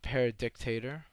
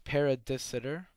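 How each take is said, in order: First: The middle of the name sounds like 'dict'. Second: The middle of the name sounds like 'sit'. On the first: The speaker calls it wrong. "not Paradictator" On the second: The speaker calls it right. "so it's Paradisitor"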